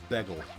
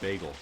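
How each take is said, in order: First: It is said with a New Jersey accent. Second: It is said with a standard accent. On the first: "everyone in school say" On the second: "instead of bagel"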